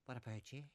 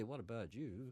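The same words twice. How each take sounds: First: "What about you" going up at the end the local way; soft question with a local lift on "you"; acceptable rising ending. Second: "What about you" with an English-style swing up on "you"; "What about you" ending in an affected English lilt; forbidden rising ending. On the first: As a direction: let "you" rise as a Northern Irish speaker would. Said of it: "there's certain ways to go up". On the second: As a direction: softly show the wrong, put-on lift on "you". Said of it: "but you can't say". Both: Shown as a demonstration.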